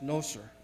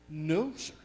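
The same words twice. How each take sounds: First: It is said in a plain, mild way. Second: It is said more forcefully, with strong emphasis.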